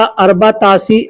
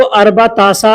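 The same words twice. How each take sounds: First: अरबा तासी with a final long ee; ee-ending variant. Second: अरबा तासा with a final long aa; aa-ending variant. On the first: (अंत में ई वाला अरबा तासी) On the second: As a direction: end अरबा तासा on an open aa. (अंत में आ वाला अरबा तासा) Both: Shown as a demonstration. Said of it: "ऐसे बोलते हैं".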